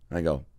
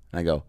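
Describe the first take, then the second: No difference in how they are said.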